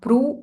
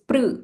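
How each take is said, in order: First: An 'oo' vowel follows the 'pr' sound. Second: No 'oo' vowel follows the 'pr' sound. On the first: The speaker calls it wrong. "not pru" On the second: The speaker calls it right. "it is pr"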